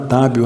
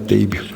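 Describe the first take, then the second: First: The first vowel sounds like 'ah'. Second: The first vowel sounds like 'ay'. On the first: Someone has learned the name. The speaker calls it right. "Depois que a pessoa aprendeu meu nome" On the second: Someone has not yet learned the name. The speaker calls it wrong. "não é confortável ouvir"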